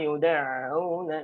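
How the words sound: The ain sound is light and unforced. The speaker calls it right. "jadi ringan"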